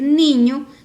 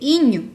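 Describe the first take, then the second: First: The word begins with an n sound. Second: The word begins without the n sound. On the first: The speaker calls it right. "en vez de decir niño" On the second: The speaker calls it wrong. "dice iño"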